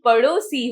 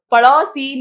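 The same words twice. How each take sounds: First: पड़ोसी with a pure o, "padosi"; correct पड़ोसी. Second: पड़ोसी with a wide au, "padausi", loud; mispronounced पड़ोसी. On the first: Teacher correcting children, पड़ोसी as "pa-do-si" with ओ. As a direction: keep a rounded ओ in पड़ोसी. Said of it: "पड़ोसी होता है". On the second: Teacher showing children the wrong form, पड़ोसी loudly as "pa-dau-si". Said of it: "पड़ोसी नहीं". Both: Shown as a demonstration.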